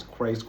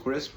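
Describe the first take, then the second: First: Crisp said like "craysk", slipping on the vowel; mispronounced crisp. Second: Crisp said cleanly with a short "i"; corrected crisp. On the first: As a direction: stumble on crisp, stretching the vowel to "ay". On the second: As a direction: fix it, a crisp short "kris". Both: Shown as a demonstration.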